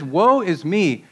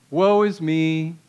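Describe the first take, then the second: First: Slow, emphatic cry of condemnation; acted prophetic self-condemnation; solemn declaration. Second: Mock gloomy, drawn-out monotone; hammed-up poor-me lament; Eeyore self-pity. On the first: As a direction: declare WOE with weight, swooping on the word. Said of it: "declaring, "I'm condemned". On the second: Shown as a demonstration. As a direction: moan it slowly, fishing for sympathy. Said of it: "kind of the Eeyore complex".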